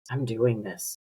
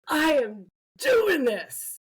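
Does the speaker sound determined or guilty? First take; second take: guilty; determined. First: It sounds guilty and self-blaming. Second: It sounds firm and determined. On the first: The mess is my own fault. "Like, I'm creating this mess" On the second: I am committed to taking action. "stand out on the lawn and do that third"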